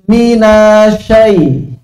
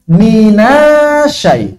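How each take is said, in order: First: The doubled sh sound is rushed and short. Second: The doubled sh sound is rushed and short.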